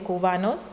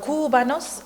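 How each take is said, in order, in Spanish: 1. El acento cae en la sílaba estándar. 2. El acento cae en una sílaba no estándar.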